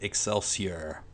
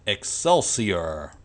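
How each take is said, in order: First: Said in the usual way. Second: Drawn-out, louder catchphrase with a showman's stretch; Stan Lee impression. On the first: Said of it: "I can't do that accent". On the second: Vlogger tries the comic legend's sign-off, mock showman impression. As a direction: stretch it out slowly and loudly in his accent. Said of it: "that wasn't too bad of an impression".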